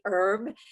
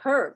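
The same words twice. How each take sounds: First: The word starts with a vowel, no h sound. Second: The word starts with an audible h sound. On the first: This is how people in the States say it. "here in the States, we say herb. The H is silent" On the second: This is how many Europeans say it. "you, um, along with many Europeans, say herb"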